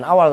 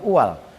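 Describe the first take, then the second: First: The word begins with an 'a' vowel. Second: The word begins with a 'u' vowel. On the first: The speaker calls it wrong. "bacanya bukan awal" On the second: The speaker calls it right. "tapi uwal"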